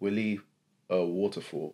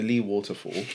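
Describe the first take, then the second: First: The name is said with two syllables. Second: The name is said with one syllable. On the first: The speaker calls it wrong. "Why did I say Willy?" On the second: The speaker calls it right. "I kept pronouncing it incorrectly"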